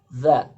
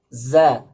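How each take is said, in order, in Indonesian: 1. Konsonannya adalah 'th' bersuara. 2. Konsonannya adalah bunyi 'z' biasa. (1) "Makhraj zal seperti itu" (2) "Berbeda dengan zai"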